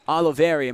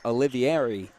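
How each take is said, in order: First: The name is said as Oliveri. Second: The name is said as Olivieri. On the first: The speaker calls it right. "My apologies" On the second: The speaker calls it wrong. "I've been saying Olivieri. So my apologies on the pronunciation"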